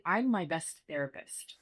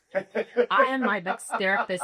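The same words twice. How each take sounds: First: Said in the usual way. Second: Louder, with am pressed hard and spelled out in full; stress on am. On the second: Shown as a demonstration. Interviewee repeats her point to a host, stressing am. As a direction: insist on the word am, not the contraction.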